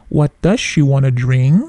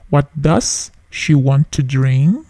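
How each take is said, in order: First: The words 'want to' are reduced to 'wanna'. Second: The words 'want to' are said in full.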